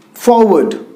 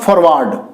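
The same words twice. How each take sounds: First: "forward" said as for-wud, with a weak ending; correct pronunciation. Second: "forward" said as for-ward, with a full ward; the wrong "forward" with a strong ward; wrong pronunciation. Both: Shown as a demonstration. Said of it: "not forward".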